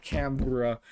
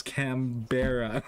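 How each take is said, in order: First: Canberra squeezed into two syllables, CAM-bruh; rejected pronunciation. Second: Canberra slowly in three syllables, cam-BEAR-uh; insisted mispronunciation. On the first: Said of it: "It's not Canberra". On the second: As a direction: stretch Canberra out, sounding the middle as BEAR. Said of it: "It's Canberra". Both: Shown as a demonstration.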